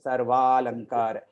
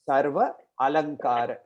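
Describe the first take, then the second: First: The two a-vowels merge into one. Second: The two a-vowels are said separately. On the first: "it becomes A" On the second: "When two A's meet"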